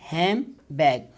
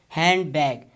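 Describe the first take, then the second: First: The middle is said with m, no d. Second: The middle is said with n and d. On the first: "now it will change into mm" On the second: "handbag is write down like this in phonetic transcription"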